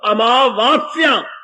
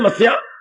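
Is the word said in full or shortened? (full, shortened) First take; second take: full; shortened. First: The word is said in full, all syllables kept. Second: The word is shortened, its opening syllables dropped. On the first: The speaker calls it right. "आ मां के बाद फिर आ की मात्रा, वाह के बाद फिर आ की मात्रा, आधा सा या आ की मात्रा" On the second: The speaker calls it wrong. "Punjabi में तो खैर बिल्कुल ही बेड़ा गर्क करके रख दिया मस्या"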